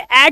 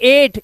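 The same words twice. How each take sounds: First: The vowel is short, as in 'at'. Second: The vowel is long, as in 'ate'. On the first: The speaker calls it wrong. "इसलिए इसे एट नहीं पढ़ते" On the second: The speaker calls it right. "इसे पढ़ते हैं एट"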